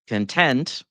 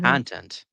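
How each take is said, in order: First: The stress is on the second syllable. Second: The stress is on the first syllable. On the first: It is the adjective meaning satisfied. "Content is an adjective" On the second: It is the noun meaning what something contains. "content is a noun"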